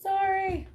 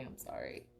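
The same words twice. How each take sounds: First: Much higher, louder sorry; a high sing-song sorry to the viewers; squeaky apology. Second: Breathy whisper, much softer; a whispered sorry to herself; whispered apology. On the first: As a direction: squeak it out, sheepish. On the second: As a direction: mutter it under your breath, embarrassed. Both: Real, not acted. Flustered apology as stream freezes.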